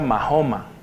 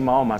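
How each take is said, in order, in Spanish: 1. El nombre se dice de la forma antigua. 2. El nombre se dice de la forma moderna. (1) "se decía" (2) "originalmente no se pronunciaba así"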